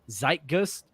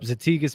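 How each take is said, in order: First: It sounds like 'tsite-guyst', with two syllables. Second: It sounds like 'za-tee-gus', with three syllables. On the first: The speaker calls it right. "It's really pronounced" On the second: The speaker calls it wrong. "we're not saying it correctly"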